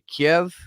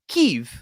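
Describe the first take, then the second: First: The city name is said the traditional Russian way. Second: The city name is said the newer Western way. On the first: The speaker sides with Russia. "which is the the Russian uh, like traditional or even Ukrainian pronunciation of it" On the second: The speaker sides with the West against Russia. "when you pronounce it Kyiv, the K Y I V"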